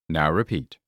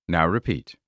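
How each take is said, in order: No difference in how they are said.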